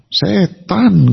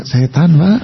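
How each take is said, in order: First: Emphatic Betawi or East Javanese, stretched syllables; glaring, weighty East Java delivery; firm East Javanese accent. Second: Gentle Solo Javanese, quick and light; refined Solo politeness, ending on a rise; soft Solo accent. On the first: Preacher contrasting East Javanese with Solo, firm and emphatic. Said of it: "Mantep, Pak. Melotot lagi". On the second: Preacher mimicking Solo people, smooth and gentle. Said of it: "orang Solo juga begitu". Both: Shown as a demonstration.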